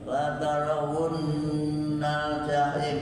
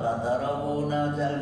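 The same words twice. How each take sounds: First: The consonant is held long, doubled. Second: The consonant is short, not doubled. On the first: The speaker calls it right. "Seperti la tarawunnal jahim" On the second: The speaker calls it wrong. "tasdid, tidak ditasdidkan, itu menjadi artinya berbeda"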